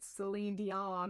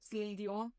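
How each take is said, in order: First: The name is said in a plain English way. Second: The name is said with a French-style accent. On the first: "That's not [name]" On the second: "you hit it with the, the little accent"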